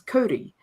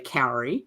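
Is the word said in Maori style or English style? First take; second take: Maori style; English style. First: The word has a Maori-style vowel sound. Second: The word is said like English 'cowrie'. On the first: The speaker calls it right. "it's a Maori word, and the pronunciation is Kauri" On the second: The speaker calls it wrong. "New Zealanders who insist on not pronouncing Maori correctly will say Cowrie"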